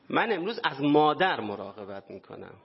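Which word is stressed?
مادر. The stress falls on the word for mother.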